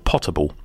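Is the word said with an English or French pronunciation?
English. It is said with an English pronunciation.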